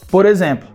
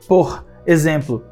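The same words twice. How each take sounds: First: The final consonant links into the next vowel. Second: The two words are said separately. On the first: The speaker calls it right. "é por exemplo. Então a gente fez uma junção" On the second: The speaker calls it wrong. "não é por exemplo"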